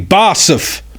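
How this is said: The letters are said with German letter names. This is how German speakers say the name. "people go who are German, and they say, no, it should be"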